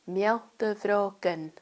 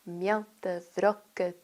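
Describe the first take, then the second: First: The second word ends with an N sound. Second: The second word ends without an N sound. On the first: "sometimes you say it with the N at the end" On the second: "you can drop the N just to get the rhythm"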